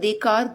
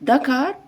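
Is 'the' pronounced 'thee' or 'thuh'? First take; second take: thee; thuh. First: The article is said with a long 'ee' vowel. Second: The article is said with a short 'uh' vowel. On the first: The speaker calls it wrong. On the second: The speaker calls it right.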